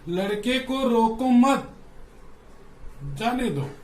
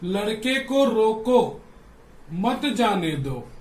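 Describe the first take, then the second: First: There is a pause after मत. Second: There is a pause after रोको.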